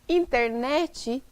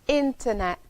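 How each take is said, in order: First: An extra vowel sound is added at the end. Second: The word ends cleanly on its final consonant. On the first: The speaker calls it wrong. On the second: The speaker calls it right.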